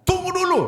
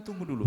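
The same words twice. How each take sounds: First: High, loud firm wait; God's firm answer. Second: Softer, calm wait; God's soft answer. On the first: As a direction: call out the command to wait, much higher and louder. (Tuhan menjawab tegas, lebih tinggi dan keras) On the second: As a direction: say wait gently and quietly. (Tuhan menjawab lembut dan pelan) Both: Acted. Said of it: "Tuhan bilang".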